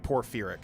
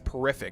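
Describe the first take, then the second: First: The word is said as 'porphyric'. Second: The word is said as 'porrific'. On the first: The speaker calls it right. "but it's like porphyric" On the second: The speaker calls it wrong. "which I always pronounce as porrific"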